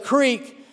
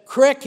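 First: Said in the usual way. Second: "crick" with a short i, as in "sick"; dialect pronunciation. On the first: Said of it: "crick instead of creek". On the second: Shown as a demonstration. Preacher showing a regional accent's word, "crick" with short i. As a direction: say "crick" the country way, short vowel. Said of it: "his speech gave him up".

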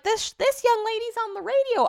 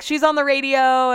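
First: Very high, put-on country accent. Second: Said in the usual way. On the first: Dog breeder introduces visitor to husband, mock country accent. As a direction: imitate her with an exaggerated country accent. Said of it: "I don't know why she has a country accent". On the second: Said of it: "she didn't sound like that either".

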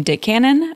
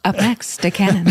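First: Team name announced with a rising lilt; lightly hyped announcer intro. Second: Hammy MC intro; mock announce the next act; announcer voice. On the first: Acted. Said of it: "like, a nice, uh, announcer type voice". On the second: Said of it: "announcer type voice".

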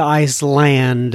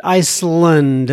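First: "Iceland" with a clear "land"; full-vowel ICE-LAND. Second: "Iceland" said as ICE-lund; reduced second syllable. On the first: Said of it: "don't pronounce it right". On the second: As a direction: say Iceland with a weak, short last vowel. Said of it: "as opposed to Iceland?". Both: Shown as a demonstration.

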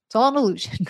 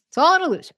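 First: Said in the usual way. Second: "It's all an illusion" said again higher and louder, punching "all"; "all" stressed high and bright on the repeat; emphatic repeat. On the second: Shown as a demonstration. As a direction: repeat "all" with a lift and more force.

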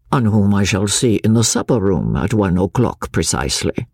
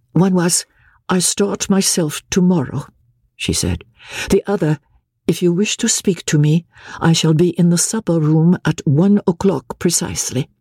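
First: Lower, calm and deliberate; Chauvelin's cool echo. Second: Higher, level and even, emotion held down; even mechanical tone. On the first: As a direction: throw her words back, coolly. Chauvelin echoing her words. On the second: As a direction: recite it like a machine, numbed. Marguerite repeating the note. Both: Acted.

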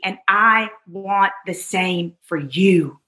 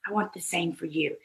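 First: Said in the usual way. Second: Soft repeat. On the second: Real, not acted.

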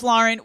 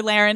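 First: Lauren said evenly as LOR-en; Lauren with an OR first vowel; proper name Lauren. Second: Lauren said as LAIR-en; Lauren with an AIR first vowel; nickname Laren. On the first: Host explaining the real name, Lauren as LOR-en. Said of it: "her name is Lauren". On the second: Host explaining what friends call her, LAIR-en for Lauren. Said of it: "We call her Lauren". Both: Shown as a demonstration.

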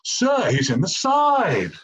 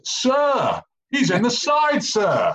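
First: High, slow mock-English wail; shrill English accent. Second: High-pitched, yelped appeal to the referee; top-of-voice shout. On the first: Teammate mocking his shout mid-game, in a shrill English accent. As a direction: mimic a shrill English appeal, words drawn out. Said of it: "this shrill English accent going". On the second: Retold or imitated. Player appealing to his coach as ref in a mauling session, shouted high. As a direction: re-enact shouting at the top of your voice. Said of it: "I just shout at the top of my vo-, voice".

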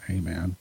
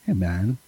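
First: Hey, man dropped low and much softer; flat mumbled greeting. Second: Hey, man with a relaxed rising hey; easy chill hey man, hey lifting; laid-back greeting. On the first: Shown as a demonstration. Host shows how the fan did not say it, soft and flat. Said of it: "Like, not". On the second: Retold or imitated. Host acts the fan's greeting, relaxed and rising. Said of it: "I can just tell the way he wrote it".

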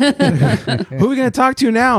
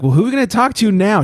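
First: High, drawn-out mock drunk voice; slow it down into a tipsy high whine; imitating drunk wife. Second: Quick, higher-pitched mock wife; imitating tipsy wife. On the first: Drunk wife eager to call more friends, hammed-up imitation. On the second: Wife asks who to call next, mock tipsy. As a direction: lightly play the drunk wife, rushing it. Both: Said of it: "She's shittered at this point".

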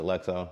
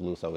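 First: "Luxo" read as spelt, with a "ks" sound; common mispronunciation. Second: "Luxo" said "LOO-so", with a plain "s"; correct brand pronunciation. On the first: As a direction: say "Luxo" like "lucks-oh". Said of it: "a lot of people pronounce it". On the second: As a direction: say "Luxo" with long "oo" and silent "k". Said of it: "but it's pronounced Luxo". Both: Shown as a demonstration.

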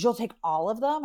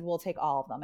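First: Mock surprise, pitched higher, rising at the end; surprised question. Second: Softer answer, falling at the end; settled answer. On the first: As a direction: ask "You'll take all of them?" higher, as a check. Retold caller reacts to the offer. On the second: Retold or imitated. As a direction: say "We'll take all of them" quietly, as settled. Her retold answer to him.

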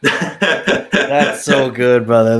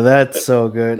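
First: Slow, with a laugh in the voice; laughing, moved. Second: Said in the usual way. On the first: Real, not acted. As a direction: savour it through a laugh.

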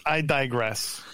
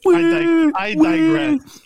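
First: Said in the usual way. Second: Hammed-up booming, much higher and louder, drawn out; over-the-top theatrical digression; mock dramatic. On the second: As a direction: belt it like a stage villain. Contrast with plain retake.

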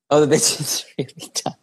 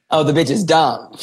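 First: Hushed, breathy whisper aside. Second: Said in the usual way. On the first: Acted. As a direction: whisper it under your breath. Mock pity after dumb answer.

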